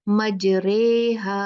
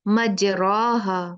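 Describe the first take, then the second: First: The vowel after the r leans toward e. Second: The vowel after the r is an open a. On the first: This is the accepted exceptional reading with imala. "लेकिन इसको कैसे पढ़ा जाता है?" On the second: This is the form the usual rule would give. "क्या होना चाहिए था इसको?"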